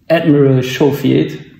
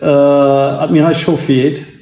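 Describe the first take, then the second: First: The name is said with an American accent. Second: The name is said with a German accent.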